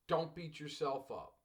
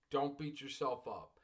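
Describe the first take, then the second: No difference in how they are said.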